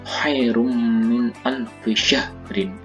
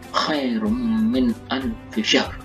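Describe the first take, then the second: First: The last word ends with a full vowel ending. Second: The last word ends on a bare consonant.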